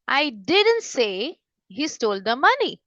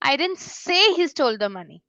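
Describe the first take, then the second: First: The word didn't is stressed with raised pitch. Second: The word say is stressed with raised pitch. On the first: The speaker denies having said it at all. "Suppose मैं यहाँ पे stress दे रही हूँ didn't पे" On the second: The speaker thought or wrote it but never said it. "मेरी जो से है उसमें बहुत ज्यादा स्ट्रेस देती हूँ"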